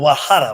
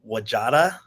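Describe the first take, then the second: First: The middle consonant is an H sound. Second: The middle consonant is a J sound. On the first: The speaker calls it right. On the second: The speaker calls it wrong.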